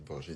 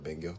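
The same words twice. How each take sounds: First: The word has a French-style pronunciation. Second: The word has an English-style pronunciation. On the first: "de franciser tous les termes" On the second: "au lieu de dire banger"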